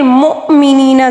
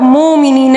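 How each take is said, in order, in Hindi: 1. पहले अक्षर के बाद एक हल्का ग्लोटल कैच आता है। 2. पहला अक्षर बिना किसी कैच के आगे बढ़ता है। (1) "हमज़ा को थोड़ा सा झटका देना होगा" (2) "ज़्यादातर लोग मुमिनीन इसी तरह पढ़ते हैं, ठीक है, ये गलत है"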